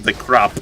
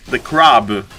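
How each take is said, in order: First: Crab with its final b hardened towards p; mispronunciation. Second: Crab said low with a voiced final b; careful pronunciation. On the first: Caster showing viewers his accent slip, crab sounding like crap. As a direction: say crab almost like crap, low. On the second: Caster fixing his English accent for viewers, careful crab with voiced b. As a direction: say crab clearly, ending on b. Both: Shown as a demonstration. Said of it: "sorry, the English accent".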